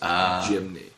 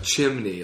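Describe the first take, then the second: First: The word begins with a 'j' sound. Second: The word begins with a 'ch' sound. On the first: The speaker calls it wrong. "Like where you go to shoot a basketball gym" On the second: The speaker calls it right. "like a chimney"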